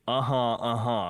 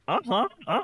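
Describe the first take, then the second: First: It is said plainly, not imitating the song. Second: It imitates the song's vocal delivery.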